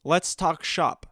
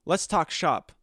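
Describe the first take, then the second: First: Let's talk shop said slowly; slow, deliberate let's talk shop; slow phrase demo. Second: Slow, savoring let's talk shop; mock business pitch. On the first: Shown as a demonstration. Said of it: "where I say the phrase". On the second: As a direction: pitch it to a fellow influencer, slowly. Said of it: "go to some other influencer and be like".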